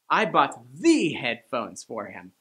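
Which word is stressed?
the. The stress falls on the word "the". They were the best headphones, not just any. "I bought the headphones, the best, not the not so good headphones"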